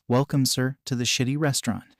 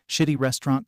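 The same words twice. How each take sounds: First: Said in the usual way. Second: Mild questioning echo; dawning realization. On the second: A narrator's reading. Crocodile recognizing the caller's phrase, mild realization. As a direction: repeat it as a puzzled, dawning question. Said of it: "Crocodile muttered in realization".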